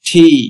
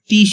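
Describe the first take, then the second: First: The t is followed by a puff of air. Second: The t is plain, without a puff of air. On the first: The speaker calls it right. "এর সঠিক উচ্চারণ হবে ঠি" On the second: The speaker calls it wrong. "But এর সঠিক উচ্চারণ হবে টি নয়"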